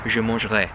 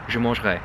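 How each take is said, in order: Both takes have the same delivery.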